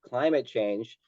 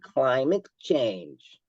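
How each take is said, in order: First: It is said in a plain, neutral tone. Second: It is said in a childish, sarcastic tone. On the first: The term is simply stated. The speaker calls it right. "you could say climate change" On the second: The term is being ridiculed. The speaker calls it wrong. "if you say it like like you're a little fifth grader or something"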